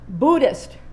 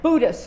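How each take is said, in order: First: The first vowel sounds like in wood. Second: The first vowel sounds like in boo. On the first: This is the one to choose. The speaker calls it right. "the second it is, rhymes with wood" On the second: It sounds low rent. The speaker calls it wrong. "the first sounds low rent, kind of ghost-like, Casper the Ghost"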